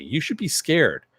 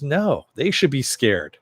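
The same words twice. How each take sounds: First: "You should be scared" pitched high as a warning; higher-pitched retold warning on "You should be scared"; emphatic warning. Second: "they" drawn out and higher; slow retort leaning hard on "they"; stress on THEY. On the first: Reyna warns Billy about Homelander, emphatic retold warning. Character warns, other throws it back. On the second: Retold or imitated. Billy turns Reyna's warning around, stress on "they".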